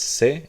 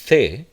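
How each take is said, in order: First: It begins with an s sound. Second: It begins with a th sound. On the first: "as if it were just an S" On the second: "especially if you want to imitate the um, the dialect of Spain"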